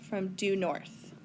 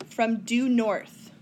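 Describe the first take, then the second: First: Softer, slow "From due north" with "due" leaned on; soft slow repeat. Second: Slow, leaning on "due" in "from due north"; stress on due. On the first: Teacher repeating "due north" softly to class. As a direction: echo it quietly to let it sink in. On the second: Teacher stressing "due" slowly for students. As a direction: stretch out "due" so the class hears it. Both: Shown as a demonstration.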